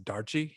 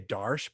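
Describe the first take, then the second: First: The name is two syllables ending in 'ee'. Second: The name is one syllable ending in 'sh'. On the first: This is how the makers say it. The speaker calls it right. "I think it's Darchi, y when the Australians say it" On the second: This is how the speaker used to say it. The speaker calls it wrong. "I used to say Darsh"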